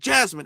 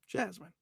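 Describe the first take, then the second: First: It is said harshly, like a scolding. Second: It is said gently, with affection.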